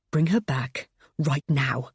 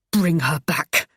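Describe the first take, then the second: First: Gritted teeth. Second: Through gritted teeth, louder. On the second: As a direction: force it through clenched teeth. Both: Acted. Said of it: "I said between gritted teeth".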